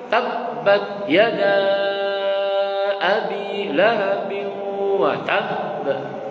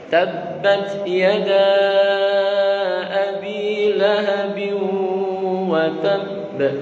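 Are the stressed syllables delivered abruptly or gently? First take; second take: abruptly; gently. First: The stressed syllables are jerky and abrupt. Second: The stressed syllables are smooth and gentle. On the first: The speaker calls it wrong. "kalau nyentak-nyentak" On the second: The speaker calls it right. "Kelembutannya harus dijaga"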